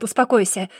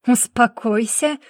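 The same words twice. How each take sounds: First: Said in the usual way. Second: Slow, disbelieving rising repeat of Успокойся; incredulous echo. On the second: A narrator's reading. Brother echoes Успокойся back with an incredulous rise. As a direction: throw the word back in disbelief. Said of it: "И ты мне говоришь успокоиться?".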